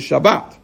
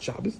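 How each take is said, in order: First: The word ends with a t sound. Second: The word ends with an s sound. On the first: The speaker calls it right. "I should say" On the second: The speaker calls it wrong. "not Shabbos"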